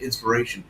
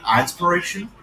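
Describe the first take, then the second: First: It starts directly with 'in', no extra sound. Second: It starts with a separate 'eye' sound. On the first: "or do you still pronounce it inspiration?" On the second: "Do you pronounce it like I inspiration"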